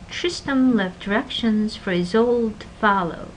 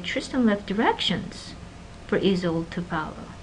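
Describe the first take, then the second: First: A typical wavy contour with no special emphasis. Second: The word directions carries strong contrastive emphasis. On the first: It is a neutral statement. "Typical pitch contour" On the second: It answers what exactly was left. "So it's a contrastive stress"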